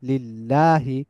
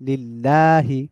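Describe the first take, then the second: No difference in how they are said.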